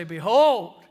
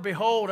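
First: Behold called out loud and falling; attention-grabbing behold. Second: Said in the usual way. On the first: Shown as a demonstration. Preacher shows how Behold grabs attention, calling it out. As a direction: ring out Behold like a summons. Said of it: "it just gets your attention". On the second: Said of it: "that word".

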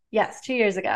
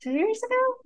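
First: Said in the usual way. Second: Sudden high, unsure question; surprised doubt. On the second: Real, not acted. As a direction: catch yourself doubting the date. Checks herself on the date.

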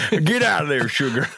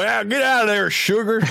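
First: Put-on a light, playful Southern accent. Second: Put-on deep Southern accent. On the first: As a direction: scold the sugar in a hint of Southern accent. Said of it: "we always turn Southern". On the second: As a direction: shoo the sugar away in a big, high Southern accent. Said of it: "a deep Southern accent".

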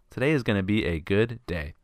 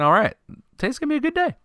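First: Said in the usual way. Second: Excited inner voice. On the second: Retold or imitated. Boy before the championship game, giddy and high. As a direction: pitch jumps way up on a good day. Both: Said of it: "I'm thinking".

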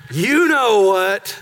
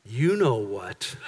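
First: Slow and louder taunt. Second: Low, slow, sneaky parrot; sly parrot voice. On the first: Parrot taunting Pastor Tommy, slow and louder. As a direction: drag it out, savouring the jab. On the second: Parrot luring Pastor Tommy over, low and sly. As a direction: lean in and draw it out like a scheming bird. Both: Retold or imitated.

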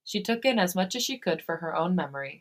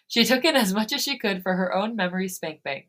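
First: Said in the usual way. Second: Laughing. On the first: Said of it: "she, she took in as much". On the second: Real, not acted.

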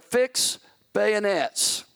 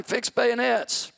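First: Firm, slow command; measured first call to fix bayonets; first order. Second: Higher, slow yelled command; yelled order. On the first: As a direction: give the order steadily, holding back. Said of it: "he yelled it the second time". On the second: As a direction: call it again, this time yelling. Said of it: "So he yelled it the second time". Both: Retold or imitated.

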